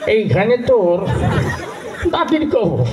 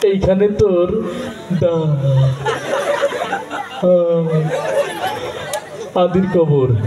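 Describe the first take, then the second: First: It is recited in an old man's mumbling voice. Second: It is recited with a stutter on the words. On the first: An old man recites while chewing betel. "মুরব্বী মানুষ, বুড়ো মানুষ, পান খেতে খেতে আসছে" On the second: The reciter struggles to get words out. "কথা বলতে একটু সময় লাগে, তোতলা টাইপের"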